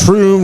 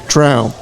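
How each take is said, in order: First: The vowel sounds like the oo in room. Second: The vowel sounds like the ow in out. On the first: The speaker calls it wrong. "no one knows what it's" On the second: The speaker calls it right. "It's like Trout the fish, except with an M at the end"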